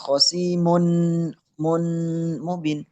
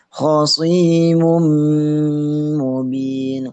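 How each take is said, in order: First: The n is nasalized but kept separate from m. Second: The n merges nasally into the following m. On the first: "tidak dimasukin hanya dengung tok" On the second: "Bacanya masuk dengan dengung"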